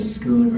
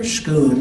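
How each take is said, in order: First: The word begins with a plain s sound. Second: The word begins with an sh sound.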